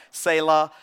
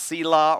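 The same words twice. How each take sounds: First: "Selah" said as SAY-luh; variant pronunciation. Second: "Selah" said as SEE-lah; variant pronunciation. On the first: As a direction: say "Selah" with an ay sound first, SAY-luh. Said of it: "pronounced Selah or". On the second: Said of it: "heard it, uh, pronounced". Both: Shown as a demonstration.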